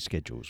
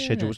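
First: It is said with an American pronunciation. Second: It is said with a British pronunciation. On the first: The speaker calls it wrong. "don't say schedules. We're not American" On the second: The speaker calls it right. "Always say schedules"

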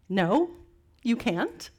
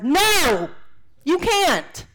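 First: It is said at a normal, calm volume. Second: It is yelled loudly.

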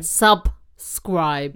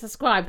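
First: The middle b sound is clearly pronounced. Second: The middle b sound is weak or dropped. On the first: The speaker calls it right. "Hit the B. ... Lovely" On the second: The speaker calls it wrong. "No, you said subscribe"

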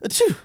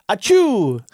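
First: The sneeze is soft and light. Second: The sneeze is loud and strong.

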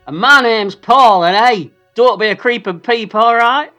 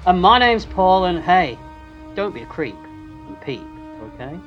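First: It is said in a normal way. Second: It is said in a creepy way.

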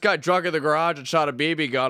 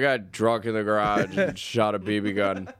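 First: The tone sounds excited and upbeat. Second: The tone sounds flat and depressed. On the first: The event was incredible. "either incredible" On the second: The event was sad and pathetic. "or really depressing"

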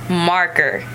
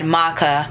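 First: The r sound is clearly pronounced with the tongue. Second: The r sound is dropped from the word. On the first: The speaker calls it right. "see how you always have to use your tongue" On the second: The speaker calls it wrong. "when I said maca, I wasn't thinking"

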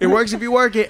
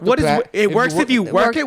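First: It is said in a plain voice without a lisp. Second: It is said in a put-on voice with a lisp.

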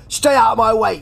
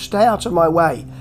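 First: It is said in an aggressive, taunting tone. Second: It is said in a plaintive, pleading tone. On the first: "he doesn't say it in any kind of" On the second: "He's quite plaintive with it"

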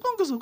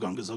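First: It is said in a high, cooing voice. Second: It is said in a normal voice.

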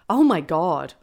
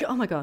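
First: It sounds elated and ecstatic. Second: It sounds shocked and startled.

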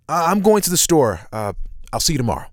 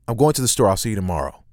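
First: It is said loosely with hesitations and breaths. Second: It is said quickly to fit tight timing.

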